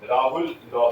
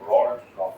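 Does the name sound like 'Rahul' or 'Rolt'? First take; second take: Rahul; Rolt. First: The name is said as two syllables, 'Rahul'. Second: The name is said as one syllable, 'Rolt'. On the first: "Hindi English accent" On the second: "तो नहीं बोला रॉल्ट, रॉल्ट law ऐसा"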